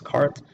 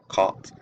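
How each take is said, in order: First: The r sound after the vowel is pronounced. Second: The r sound after the vowel is dropped. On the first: "in the Midwestern accent, the word is cart" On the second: "the New Yorker accent, it that word becomes caught"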